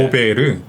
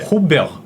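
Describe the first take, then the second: First: Korean-style, three syllables with a tapped r. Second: French-style, two syllables with a throaty r. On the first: The speaker calls it wrong. "우리나라로 하면 세 음절이잖아요" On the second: The speaker calls it right. "불어로 읽으면 두 음절입니다"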